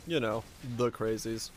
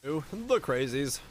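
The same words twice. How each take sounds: First: Said in the usual way. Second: Slow teasing "the crazies" with a stretched ooh; spooky drawn-out. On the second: Shown as a demonstration. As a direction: draw out "Ooh, the crazies" slowly, mock ominous.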